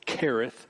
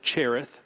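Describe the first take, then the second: First: The word begins with a K sound. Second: The word begins with a CH sound. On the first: The speaker calls it right. "the correct Hebrew pronunciation is Kereth, as if it were to say K-E-R" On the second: The speaker calls it wrong. "some would pronounce it Cherith"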